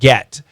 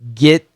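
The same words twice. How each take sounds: First: The vowel sounds like a short E. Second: The vowel sounds like a short I. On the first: "instead of get" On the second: "Get instead of get"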